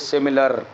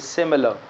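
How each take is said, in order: First: The final r sound is pronounced. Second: The final r sound is dropped. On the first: The speaker calls it wrong. "We don't say similar" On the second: The speaker calls it right. "We say similar"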